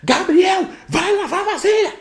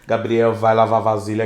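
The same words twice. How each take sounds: First: The voice sounds stressed and exasperated. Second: The voice sounds calm and patient. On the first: Patience has run out after repeated requests. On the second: The request is still made patiently.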